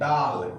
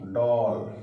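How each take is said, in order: First: The vowel is a plain open aa sound. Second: The vowel is rounded, between aa and o. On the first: The speaker calls it wrong. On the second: The speaker calls it right.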